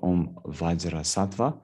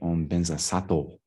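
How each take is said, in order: First: It is said with Sanskrit-style sounds. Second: It is said with Tibetan-style sounds. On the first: "instead of" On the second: "they'll say"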